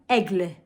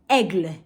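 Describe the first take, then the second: The two takes are said the same way.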